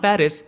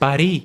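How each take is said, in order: First: The city name is said the English way. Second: The city name is said the French way. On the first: "it's not पेरिस" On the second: "it's पारी"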